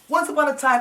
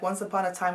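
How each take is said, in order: First: It is said with varied, lively pitch and energy. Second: It is said in a flat, monotone voice. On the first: The speaker sounds engaging, like a storyteller. The speaker calls it right. "That's vocal variety" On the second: The speaker sounds dull and unengaging. The speaker calls it wrong. "people are tired of hearing presenters sound like this"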